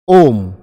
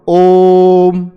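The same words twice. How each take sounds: First: The vowel is said at normal length. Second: The vowel is held about three times longer.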